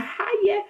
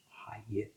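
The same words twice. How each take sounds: First: A much higher, breezy little "Hi, yeah."; lightly voiced young woman saying hello; girlfriend's high greeting. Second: Shy whispered "Hi, yeah."; whispered reply. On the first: His future missus greeting him at the door, much higher. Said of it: "she said". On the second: Retold or imitated. Shy kitchen porter answering the girl at the door, whispered. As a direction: barely breathe it back to her. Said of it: "I was like".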